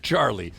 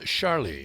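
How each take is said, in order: First: The name is pronounced with English sounds. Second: The name is pronounced with French sounds.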